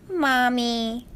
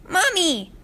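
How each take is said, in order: First: Loving and forgiving. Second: Put-on high, excited child's cry of Mommy. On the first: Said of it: "in a loving and forgiving voice". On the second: Filly spotting a cupcake stand, excited high call. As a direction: call out eagerly, pointing at cupcakes. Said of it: "the filly cried out". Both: A narrator's reading.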